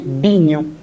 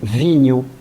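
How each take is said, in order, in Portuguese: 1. A palavra começa com som de b. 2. A palavra começa com som de v. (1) "dizem binho" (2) "não dizem vinho"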